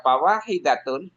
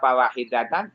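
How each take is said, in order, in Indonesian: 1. Kata ini berakhir dengan bunyi 'un'. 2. Kata ini berakhir dengan bunyi 'an'.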